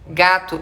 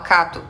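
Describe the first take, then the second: First: The word begins with a voiced g sound. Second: The word begins with a voiceless k sound. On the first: "em vez de ela falar, por exemplo, gato" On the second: "ela fala cato"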